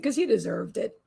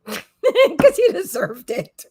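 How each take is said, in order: First: Said in the usual way. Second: Slow, drawn-out repeat through laughter; laughing repeat. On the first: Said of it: "She said". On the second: Real, not acted. Repeating her dog's imagined reply to viewers, laughing slowly.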